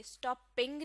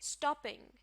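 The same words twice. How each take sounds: First: stopping with stress on the second part, ping; wrong stress, second syllable. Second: stopping with the stress on stop, the first part; stress on first syllable. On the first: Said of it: "इस word के दूसरे हिस्से पर आपने stress नहीं देना". (Stopping में दूसरे हिस्से पर ज़ोर) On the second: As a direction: punch the start of stopping. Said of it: "stress शुरू के हिस्से पर होगा". (स्टॉपिंग में शुरू के हिस्से पर ज़ोर) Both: Shown as a demonstration.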